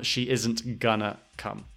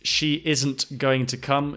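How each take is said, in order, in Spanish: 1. Going to se reduce a gonna. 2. Going to se dice completo, dos palabras. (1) "a lot of people say gonna instead of going to" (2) "the pronunciation of going to"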